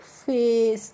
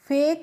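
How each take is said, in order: First: The word ends with an s sound. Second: The word ends with a k sound. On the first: The speaker calls it right. "इसको हम पढ़ेंगे फेस" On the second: The speaker calls it wrong. "फेक नहीं पढ़ेंगे"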